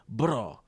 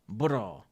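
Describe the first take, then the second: No difference in how they are said.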